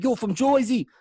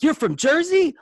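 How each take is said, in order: First: Put-on Jersey accent. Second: High, loud thrilled disbelief; excited. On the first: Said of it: "Not in the Jersey accent". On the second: Retold or imitated. Stranger in Oregon hears you're from Jersey, high excited squeal. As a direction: squeal it like meeting a fellow Jerseyan. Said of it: "You get excited".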